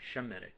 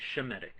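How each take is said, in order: First: The word begins with an sh sound. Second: The word begins with an sh sound.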